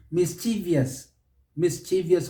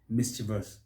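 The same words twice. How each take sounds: First: "mischievous" as mis-CHEE-vee-us; wrong extra syllable. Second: "mischievous" as MIS-chi-vus; three syllables in "mischievous", stress first; correct mischievous. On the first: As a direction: stretch "mischievous" to four syllables, stressing CHEE. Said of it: "people put an extra syllable". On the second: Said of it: "is simply mischievous". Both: Shown as a demonstration.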